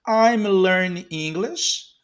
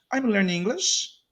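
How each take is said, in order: First: I'm learning English, slow and drawn out, rising end; slow model. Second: Said in the usual way. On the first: Shown as a demonstration. Teacher modelling a phrase for learners, slowly. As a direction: stretch each word for learners.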